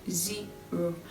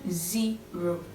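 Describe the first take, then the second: First: The first vowel sounds like 'ee'. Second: The same.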